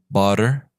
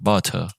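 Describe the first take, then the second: First: It is said with an American accent. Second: It is said with a British accent. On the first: "That is how it sounds for the American accent" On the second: "Now let's go with butter. It's gonna be really similar"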